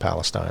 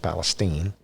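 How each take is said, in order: First: The name is said the standard way. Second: The name is said the local Texas way. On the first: The speaker calls it wrong. "they don't pronounce it Palestine" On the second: The speaker calls it right. "it's Palestine"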